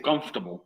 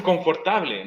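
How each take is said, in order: First: "comfortable" squeezed to COMF-tu-bul, lower; English three syllables. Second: "confortable" read the Spanish way, con-for-ta-ble; read as spelt. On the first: Teacher correcting the spelt-out reading, comfortable in three English syllables. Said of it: "No, dice comfortable". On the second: Teacher imitating a learner reading the word, confortable pronounced as spelt. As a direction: sound out every written syllable of "confortable", Spanish vowels. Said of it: "Uno la lee y dice". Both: Shown as a demonstration.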